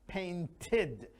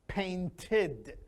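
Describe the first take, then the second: No difference in how they are said.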